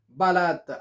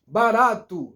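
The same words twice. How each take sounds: First: "barata" said as barato with its final vowel swallowed; "barata" as a wrong "ba-RAT"; foreigners' mispronunciation. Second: "barato" slowly, with final O released as "oo"; correct full ending. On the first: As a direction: end "barata" almost on the T, like "barat". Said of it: "não é barata". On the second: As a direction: let the last sound of "barato" out, "-tu". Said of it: "A gente tem que soltar o som". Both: Shown as a demonstration.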